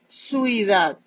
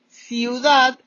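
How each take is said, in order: First: The first syllable sounds like 'sui'. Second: The first syllable sounds like 'ciu'. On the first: The speaker calls it wrong. "decimos suidad" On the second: The speaker calls it right. "En lugar de decir ciudad"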